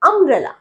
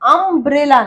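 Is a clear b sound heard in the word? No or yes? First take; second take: no; yes. First: No b sound is pronounced in the word. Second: A b sound is pronounced in the word. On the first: The speaker calls it right. "বি উচ্চারণ হয় না" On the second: The speaker calls it wrong. "আমব্রেলা না, বি উচ্চারণ হয় না"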